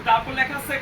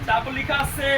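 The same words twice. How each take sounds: The two takes are said the same way.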